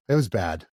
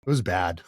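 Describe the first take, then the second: First: Laughing through the words; a rueful laugh as he repeats it. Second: Said in the usual way. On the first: Real, not acted.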